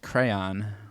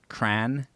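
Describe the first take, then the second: First: The word is said as two syllables. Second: The word is said as one syllable. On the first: This is the standard way to say it. "it's actually pronounced crayon" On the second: This is how most people say it in the Midwest. "in the Midwest, most people just pronounce it cran"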